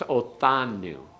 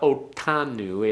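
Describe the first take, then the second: First: The middle consonant is a th sound. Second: The middle consonant is a hard t sound. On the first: The speaker calls it right. "It's like a th as in thing" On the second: The speaker calls it wrong. "Don't make it a real hard one. It's not otanu"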